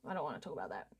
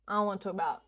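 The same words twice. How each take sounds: First: Much quieter, lower throwaway line; muttering low. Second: Said in the usual way. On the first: Real, not acted. Streamer dodging a topic with chat, low mutter. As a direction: grumble it under your breath.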